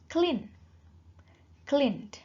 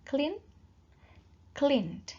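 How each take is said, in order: The two takes are said the same way.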